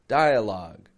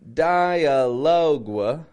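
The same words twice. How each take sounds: First: The ending is pronounced like 'log'. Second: The ending is pronounced like 'log-wa'. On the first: The speaker calls it right. "I'm not pronouncing that U E, just a log" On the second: The speaker calls it wrong. "Notice I'm not saying dialogue, like logua"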